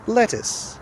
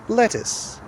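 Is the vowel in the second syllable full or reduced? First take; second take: reduced; reduced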